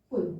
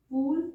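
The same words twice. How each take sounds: First: पुल said quickly, short u; short vowel. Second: पूल with a long, stretched oo; long vowel. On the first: Teacher contrasting vowels for learners, quick short पुल. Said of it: "पुल जल्दी पढ़ के आगे जा रहे हैं". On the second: Teacher showing learners a long vowel, stretched oo in पूल. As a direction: draw out the oo in पूल. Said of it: "पूल sound लंबी खींचे". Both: Shown as a demonstration.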